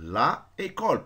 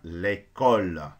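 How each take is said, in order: First: Both vowels are kept, with a break between them. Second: The article's vowel is dropped, joining the noun. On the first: The speaker calls it wrong. "normalement la école" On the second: The speaker calls it right. "Donc ça devient l'école"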